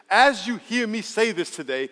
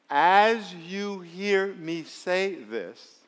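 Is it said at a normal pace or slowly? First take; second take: normal; slowly. First: It is said at a normal pace. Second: It is said slowly, with pauses.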